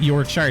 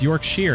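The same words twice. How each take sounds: First: The last syllable is a full 'shire'. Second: The last syllable is reduced to 'sher'. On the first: "I just say Shire" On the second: "all the Brits keep trying to tell me"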